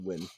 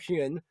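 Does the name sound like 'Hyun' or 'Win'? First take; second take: Win; Hyun. First: The name sounds like 'Win'. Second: The name sounds like 'Hyun'. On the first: The speaker calls it right. "It's pronounced Win" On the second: The speaker calls it wrong. "I pronounced that wrong"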